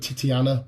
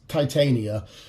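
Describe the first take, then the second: First: The second syllable sounds like 'ti'. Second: The second syllable sounds like 'tan'. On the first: This is a private joke version. "I've always called her Titiana" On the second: This is the name's real form. "I know it's Titania"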